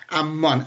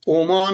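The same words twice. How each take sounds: First: "عمان" with opening a and geminated m; Ammân with doubled m. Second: "عمان" with opening o and one short m; Omân without gemination. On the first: Panelist demonstrating Jordan's capital, "عمان" as Ammân. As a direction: say "عمان" as am-MÂN, leaning on the m. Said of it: "از میمش مشدده". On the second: Panelist summing up the country's correct name, "عمان" as Omân. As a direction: say "عمان" as o-MÂN, m not doubled. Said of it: "عمان بدون تشدید". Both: Shown as a demonstration.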